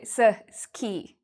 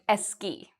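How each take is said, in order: First: An extra vowel sound separates the s and k. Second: An extra vowel sound comes before the word. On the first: "they might add a vowel" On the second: "they might add an E"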